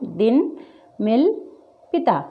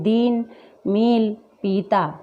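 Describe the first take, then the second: First: Short, light i in "दिन", "मिल", "पिता". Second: "दिन", "मिल", "पीता" with the i stretched long; wrongly long i. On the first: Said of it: "क्या पढ़ रहे हैं हम?". ("दिन, मिल, पिता" में छोटी इ) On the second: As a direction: draw out the i as in दीन, मील, पीता. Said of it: "इसको हम ऐसा नहीं पढ़ रहे हैं". ("दिन, मिल, पीता" में ई खींचकर) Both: Shown as a demonstration.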